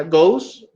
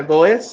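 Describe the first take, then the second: First: "goes" in one syllable, like "gohz"; correct pronunciation. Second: "goes" split into "go-es"; wrong pronunciation. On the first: Teacher corrects the learners' reading, "goes" said as one syllable. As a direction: glide the OH in "goes" straight into the s. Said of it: "se pronuncia goes". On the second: Teacher warns learners against this, "goes" in two syllables, "go-es". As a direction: read "goes" as spelt, with a separate Spanish E. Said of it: "no se pronuncia goes". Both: Shown as a demonstration.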